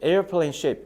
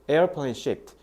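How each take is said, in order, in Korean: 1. 'shape'에서 끝나고 마지막 t는 없어요. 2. 가볍지만 들리는 t로 끝나요. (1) "이렇게 shape로만 들리는데" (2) "뒤에 t, t, t 이렇게 ed 발음을 살짝 내"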